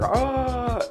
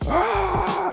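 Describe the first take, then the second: First: It is a weak, fairly quiet shout. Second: It is a full, very loud scream.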